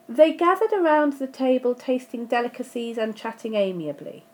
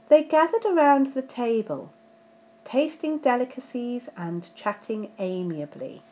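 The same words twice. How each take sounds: First: It runs on with no fall after table. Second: The pitch falls with a pause after table. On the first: The speaker calls it wrong. "Without the comma, it doesn't really make as much sense as it should" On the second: The speaker calls it right. "there my intonation went down before the comma and before amiably"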